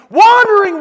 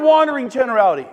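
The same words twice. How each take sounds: First: Much louder and higher, one word; scornful loud shout at the audience. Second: Louder but calmer follow-up; a firmer, calmer repeat of the label. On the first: Scorning the aimless attitude. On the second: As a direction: repeat it firmly, less explosively. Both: Real, not acted.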